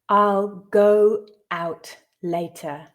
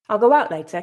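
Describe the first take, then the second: First: The sentence is read slowly. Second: The sentence is read at natural speed. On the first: "the first time slowly for you to grasp the meaning" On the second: "I'll read it twice more at a more natural pace"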